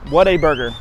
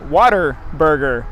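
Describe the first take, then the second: First: The name is said as three separate words. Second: The name is blurred to sound like 'water burger'. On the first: "I have to think, what a burger" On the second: "I always called it Waterburger, like water burger"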